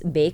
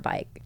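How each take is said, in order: First: The name rhymes with the word make. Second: The name rhymes with the word like. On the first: The speaker calls it right. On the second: The speaker calls it wrong.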